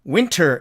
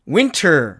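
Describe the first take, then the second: First: The t sound after n is clearly pronounced. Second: The same.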